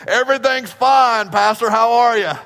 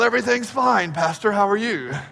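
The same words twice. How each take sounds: First: It is said in a plain, folksy country manner. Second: It is said in a refined, sophisticated manner. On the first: "good Texan people" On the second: "We're far more sophisticated"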